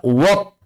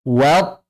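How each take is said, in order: First: "wat" thickened to a rounded wot; wrong wat. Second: "wat" with a thin, open a; correct wat. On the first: Teacher showing what to avoid, thick rounded "wat". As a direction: say "wat" with a heavy o vowel, like wot. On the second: Teacher modelling the right reading, thin open "wat". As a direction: say "wat" cleanly, without rounding the vowel. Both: Shown as a demonstration. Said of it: "jangan dibaca wat".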